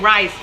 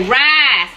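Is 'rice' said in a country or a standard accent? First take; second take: standard; country. First: It is said in a standard accent. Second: It is said in a rural Southern accent. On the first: Country people do not say it this way. "They don't say rice" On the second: This is how country people say it. "They say rice"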